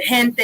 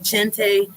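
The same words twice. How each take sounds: First: It is pronounced the way a native Spanish speaker would. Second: It is pronounced with an English-sounding accent. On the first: The speaker calls it right. "speaking like a native, he pronounced the word gente beautifully" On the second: The speaker calls it wrong. "he didn't say gente"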